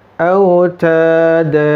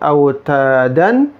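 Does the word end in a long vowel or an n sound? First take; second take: long vowel; n sound. First: The word ends in a long open vowel. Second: The word ends in an n sound. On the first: The speaker calls it right. "tapi autada. Dibaca panjang" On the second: The speaker calls it wrong. "bukan autadan"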